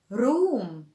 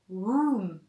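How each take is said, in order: First: The R is rolled with the tongue. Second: The R is rounded, like a W. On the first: The speaker calls it wrong. "if you are an Arabic speaker and you pronounce it R" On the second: The speaker calls it right. "It is a rounded sound"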